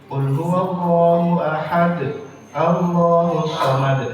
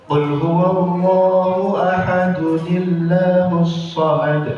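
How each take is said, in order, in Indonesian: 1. Ada jeda setelah ahad. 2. Ahad tersambung ke Allahus dengan tambahan bunyi n. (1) "Harusnya begitu" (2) "Harusnya seperti itu"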